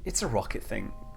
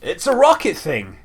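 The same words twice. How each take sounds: First: The tone sounds gentle and reassuring. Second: The tone sounds condescending and dismissive. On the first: The listener can understand it too. "in a reassuring manner" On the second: The listener is too ignorant to get it. "in a really condescending manner"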